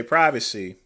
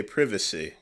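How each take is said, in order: First: "privacy" with a long i, PRY-vacy; American privacy. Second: "privacy" with a short i, PRIV-acy; British privacy. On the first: American vlogger showing how Americans say the word, long-i PRY-vacy. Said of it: "we say privacy". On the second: American vlogger showing how the British say it, short-i PRIV-acy. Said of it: "In Britain, they say privacy". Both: Shown as a demonstration.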